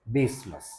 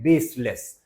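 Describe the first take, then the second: First: बेसलेस ending in a short "lus"; right pronunciation. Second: बेसलेस with a full "less", the wrong way; wrong pronunciation. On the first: Teacher showing students the preferred way with a short "lus". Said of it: "ज्यादा चलता है लस". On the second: Teacher showing students the wrong way with a clear "les". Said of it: "बेसलेस नहीं है ये". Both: Shown as a demonstration.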